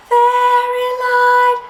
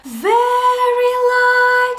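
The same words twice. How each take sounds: First: High falsetto, louder; light falsetto. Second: High, slow falsetto; light falsetto. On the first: Teacher repeats falsetto line for student, light. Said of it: "say that". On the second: Teacher models falsetto for student to copy, light. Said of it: "Try it for me". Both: Shown as a demonstration.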